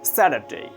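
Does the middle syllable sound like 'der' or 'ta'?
der. The middle syllable sounds like 'der'. "Sa, der, der, day"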